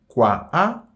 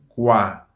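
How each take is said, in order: First: The article is said as a separate sound. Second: The article merges into the noun's final vowel. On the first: The speaker calls it wrong. "nous pas dire" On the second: The speaker calls it right. "mais nous dit"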